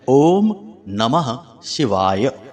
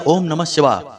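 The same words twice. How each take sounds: First: It is said slowly, each word fully pronounced. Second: It is said quickly, the words rushed together. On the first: The speaker calls it right. "इस प्रकार से आपको पूर्ण उच्चारण करना है" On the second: The speaker calls it wrong. "जल्दबाजी में"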